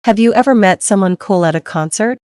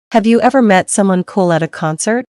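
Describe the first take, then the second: No difference in how they are said.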